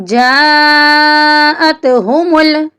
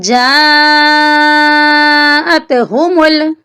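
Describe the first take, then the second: Both takes have the same delivery.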